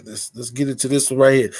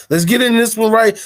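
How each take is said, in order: First: Said in the usual way. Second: Louder, higher West Coast hype; hyped West Coast accent. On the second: Shown as a demonstration. Podcast host getting hyped for a topic, West Coast accent. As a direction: get amped and slip into a West Coast accent. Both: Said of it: "I just go into a West Coast accent".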